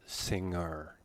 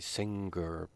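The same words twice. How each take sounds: First: No hard g sound follows the ng. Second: A hard g sound follows the ng. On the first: The speaker calls it right. "There is no g sound in singer" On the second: The speaker calls it wrong. "Many students say singer, but that's not right"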